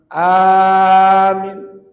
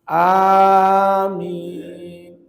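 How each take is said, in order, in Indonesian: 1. Suku kata pertama panjang, yang kedua pendek. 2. Kedua suku kata panjang. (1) "A dipanjangkan, min pendek, keliru" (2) "A panjang, min panjang"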